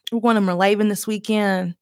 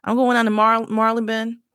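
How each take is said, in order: First: Marylebone as mur-LAY-bin, Southern twang; Southern pronunciation. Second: Marylebone as MAR-lee-bun, stress up front; attempted pronunciation. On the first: What her Southern brain wants, Marylebone as mur-LAY-bin. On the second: Trying out weekend plans, Marylebone as MAR-lee-bun. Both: Shown as a demonstration. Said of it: "that's what my brain wants to say".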